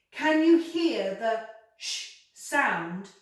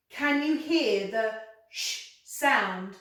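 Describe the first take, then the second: No difference in how they are said.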